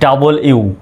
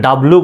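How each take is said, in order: First: The letter name is said fully as 'double u'. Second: The letter name is squeezed into 'dablu'. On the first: The speaker calls it right. "সঠিক উচ্চারণটা কিন্তু ডাবল ইউ" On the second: The speaker calls it wrong. "অনেকে ডব্লু বলে, তারপরে ডাবলু বলে"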